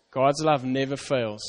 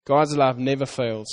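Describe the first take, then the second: First: Slow, soft "God's love never fails" as a vow; softer, slower promise. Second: Said in the usual way. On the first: Shown as a demonstration. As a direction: reassure them gently. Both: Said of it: "That's a promise".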